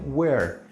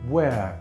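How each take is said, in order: First: The final R is clearly pronounced. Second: The final R is not pronounced. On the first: "en inglés americano la R suena muy bien" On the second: "en inglés británico la R mucho no se pronuncia"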